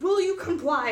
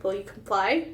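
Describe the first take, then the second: First: High-pitched mock demand; demanding robot. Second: Said in the usual way. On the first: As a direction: play the robot pressing its question. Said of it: "he's like". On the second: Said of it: "And you're like".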